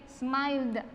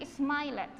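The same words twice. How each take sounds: First: Smiled with silent E, "smaild"; final D sound. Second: Smiled wrongly split in two, "smai-led"; wrong pronunciation. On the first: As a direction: close smiled on a voiced "da" release. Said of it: "con una D". (smiled dicho "smaild", con D sonora final) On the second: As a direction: sound out the silent E in smiled. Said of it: "yo no voy a decir smiled". (smiled mal dicho, en dos sílabas: "smai-led") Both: Shown as a demonstration.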